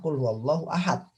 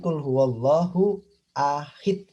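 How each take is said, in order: First: The last word ends with an 'a' vowel. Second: The last word ends with an 'i' vowel. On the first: The speaker calls it right. "menggunakan fathah" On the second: The speaker calls it wrong. "Bukan fathah tapi kasroh"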